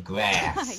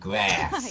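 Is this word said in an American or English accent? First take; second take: American; American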